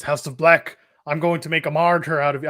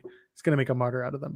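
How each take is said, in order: First: Put-on a light, half-hearted stab at an Irish accent on "martyr"; attempted Irish accent. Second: Said in the usual way. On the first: Pac on the big screen threatening House of Black, faint Irish accent. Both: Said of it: "that was Irish".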